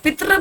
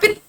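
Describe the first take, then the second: First: The word ends with a clear 'ri' sound. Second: The word ends without any 'ri' sound. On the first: The speaker calls it right. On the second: The speaker calls it wrong.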